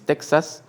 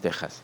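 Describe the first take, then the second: First: The middle consonant sounds like ks. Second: The middle consonant is a harsh throaty h. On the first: "the X Latin" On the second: "the J that the most Arabic they, they were pronouncing"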